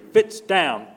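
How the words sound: It is said in a small, childlike voice. The command gets ignored. "in his little toddler voice"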